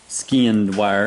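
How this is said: The first word ends with a d sound. This is how people outside the South say it. "as the non-Southerners say"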